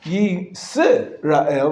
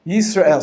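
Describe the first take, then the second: First: Yisrael with an extra vowel, yi-se-ra-el, slow; wrong Hebrew syllable. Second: Yisrael with the s closing the first syllable, yis-rael; Hebrew syllable stop. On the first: Teacher showing students the wrong Yisrael. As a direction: stretch Yisrael out with a vowel after the s. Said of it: "It's not". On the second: Teacher showing students the correct Yisrael. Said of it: "Ra'el is the second syllable". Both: Shown as a demonstration.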